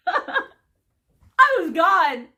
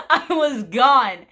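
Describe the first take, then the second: First: Laughing through the words, slowly. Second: Said in the usual way. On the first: Real, not acted. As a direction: laugh while you say it, drawn out. Laughing about losing it.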